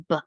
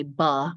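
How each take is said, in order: First: "buh" cut short to a crisp b; "buh" with hardly any vowel after the b; crisp sound. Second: "buh" with an added vowel after the b; "buh" as the wrong, drawn-out b sound; sloppy sound. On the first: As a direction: say "buh" as a bare, quick b. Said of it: "say it nice and crisp". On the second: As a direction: let "buh" drag into a full uh. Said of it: "we don't wanna say". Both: Shown as a demonstration.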